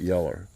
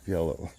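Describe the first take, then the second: First: The word ends with an 'er' sound. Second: The word ends with an 'oh' sound. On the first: The speaker calls it wrong. "not yeller, like old yeller" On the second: The speaker calls it right.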